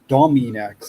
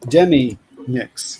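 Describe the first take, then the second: First: The first syllable sounds like 'dom' in dominate. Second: The first syllable sounds like 'dem' in demi. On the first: The name comes from the word dominate. The speaker calls it wrong. "it's not related to dominate then. It's not Dominex" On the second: The name combines demi and Phoenix. The speaker calls it right. "It's Demi-Nix"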